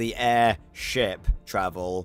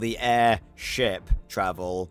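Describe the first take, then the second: First: Air and ship are said as separate words. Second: The same.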